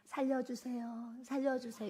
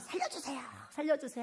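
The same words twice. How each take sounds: First: It is said calmly and elegantly. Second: It is said urgently and frantically.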